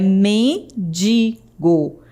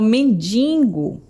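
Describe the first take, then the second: First: No n sound comes before the g. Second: An extra n sound comes before the g. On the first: The speaker calls it right. "Mas não tem esse N, é mendigo" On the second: The speaker calls it wrong. "como se tivesse um N aí depois do, do I"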